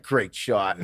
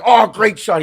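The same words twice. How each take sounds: First: Toned-down parroting of praise; child echoing. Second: Loud, high exclamation of praise; hammed-up cheer for a good shot; mock cheering. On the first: Retold or imitated. Child repeats the players' praise, imitated echo. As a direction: repeat it back at an everyday pitch. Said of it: "He's just repeating". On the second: Players praise a shot, mock cheering. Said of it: "And then we're like".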